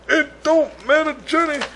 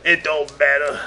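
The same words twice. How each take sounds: First: High, whiny mock lament; mock whine. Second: Said in the usual way. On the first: Host to Johnny about nobody listening, mock whine. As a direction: whine it like a sulky kid. Repeats line to Johnny mockingly.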